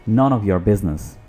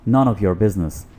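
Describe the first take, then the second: The two takes are said the same way.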